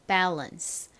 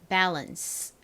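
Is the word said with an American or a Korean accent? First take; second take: American; American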